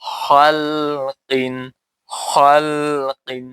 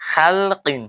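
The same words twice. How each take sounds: First: খালকিন with a heavy খা and bounce on ক, very slow; slow tajweed demo of খালকিন; correct recitation. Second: খালকিন said quick and high as the wrong way; quick wrong take of খালকিন; wrong pronunciation. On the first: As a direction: draw out খালকিন slowly with echoing qalqala. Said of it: "খালকিন না বল-, বলবে". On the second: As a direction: toss off খালকিন plainly, the incorrect reading. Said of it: "তাহলে উচ্চারণ হবে না". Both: Shown as a demonstration.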